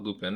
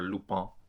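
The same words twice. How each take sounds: First: The name has an American English pronunciation. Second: The name has a French pronunciation. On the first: "I'm gonna say Lupin because I'm American" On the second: "as they say in the show"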